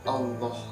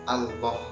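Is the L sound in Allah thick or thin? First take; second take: thick; thick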